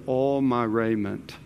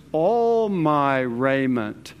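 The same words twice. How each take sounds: First: Said in the usual way. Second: Slow right down and lean on ALL; a long, emphatic ALL before "my raiment"; stress on ALL. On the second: Acted.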